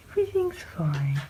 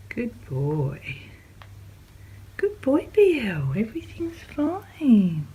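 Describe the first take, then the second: First: Said in the usual way. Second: Slow, high whispered reassurance; soothing whisper. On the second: Real, not acted. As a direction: whisper it gently to calm them. Soothing animals.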